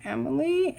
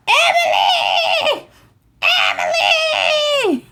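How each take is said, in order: First: Small, quiet, questioning voice; hesitant question. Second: Very high, drawn-out mock holler; screaming a name. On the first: Retold or imitated. Timid friend answering the genies who ask a name, hesitant question. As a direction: softly offer the name, rising. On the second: Genies hollering for a missing friend, high screaming call. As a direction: call out shrieking, stretching the name long. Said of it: "they're screaming for you".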